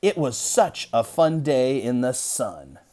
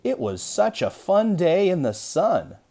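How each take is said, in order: First: A little excited. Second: Much higher, louder, slower and bubbling over; hammed-up excitement. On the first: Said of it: "it would read something like this". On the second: Teacher demonstrating an exclamation mark with big excitement. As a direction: overdo the excitement for the kids. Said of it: "we're just supposed to be a little excited about". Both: Shown as a demonstration.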